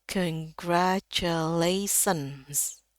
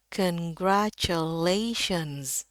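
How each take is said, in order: First: "congratulations" très lent, finissant en "sens" avec s; découper "congratulations" et siffler "-tions" en sens; prononciation courante fautive. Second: "congratulations" très lent, finale "shenz" en ch et z; découper "congratulations" et chuinter "-tions"; prononciation correcte. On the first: Retold or imitated. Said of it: "biasanya orang bacanya". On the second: Shown as a demonstration. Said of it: "yang benarnya adalah congratulations".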